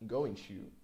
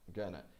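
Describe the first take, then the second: First: Both words are said fully and separately. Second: The words blend into one reduced word. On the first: "I said going to" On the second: "He said gonna, gonna. It is a contraction"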